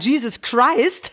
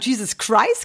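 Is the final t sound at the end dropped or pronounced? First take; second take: pronounced; dropped. First: The final t sound is clearly pronounced. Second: The final t sound is left out. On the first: This is how it was meant to be said. The speaker calls it right. "er wollte sagen Jesus Christ" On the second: This is how it was actually said. The speaker calls it wrong. "Er hat das T unterschlagen"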